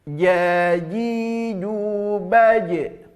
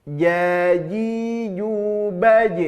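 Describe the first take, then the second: No difference in how they are said.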